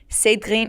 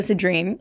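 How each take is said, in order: First: The name is said with a French accent. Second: The name is said with an American accent. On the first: "It's weird" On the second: "I'm just going to say it in an American accent"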